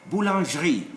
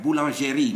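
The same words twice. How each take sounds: First: "boulangerie" as boo-lonzh-ree; no vowel between zh and r in "boulangerie"; silent e. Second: "boulangerie" as boo-lon-zhe-ree; wrong, e pronounced. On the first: Teacher modelling French bakery word, e silent. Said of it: "E's without an accent are silent". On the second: Teacher showing the wrong French form, e sounded. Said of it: "not boulangerie". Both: Shown as a demonstration.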